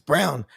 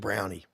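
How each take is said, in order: First: The name is one syllable with no ending. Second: The name ends with an extra 'ee' syllable. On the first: The speaker calls it right. "it's Brown with a silent E" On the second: The speaker calls it wrong. "some people call me mister Brownie because there's an E on the end of my name"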